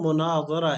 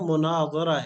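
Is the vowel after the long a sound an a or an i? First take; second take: a; a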